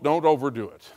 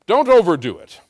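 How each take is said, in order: First: Said in the usual way. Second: Louder mock repeat of the stingy missionary; mocking echo. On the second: Pastor mocking the cheap missionary, scornful echo. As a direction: throw his words back with scorn. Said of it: "I don't know why missionaries are so cheap".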